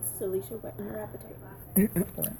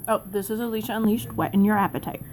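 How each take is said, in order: First: Hushed, drawn-out sign-off; soft slow sign-off. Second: Said in the usual way. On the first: Shown as a demonstration. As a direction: breathe the tagline slowly and softly. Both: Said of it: "we should get to ten and say".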